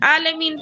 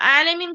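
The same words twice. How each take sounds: First: It begins with a plain vowel sound. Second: It begins with a deep throat consonant. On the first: It means painful. The speaker calls it wrong. "आइन को ठीक से अदा नहीं करके आलमीन बोले, अलिफ से" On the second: It means knowing. The speaker calls it right. "आलमीन में आइन है"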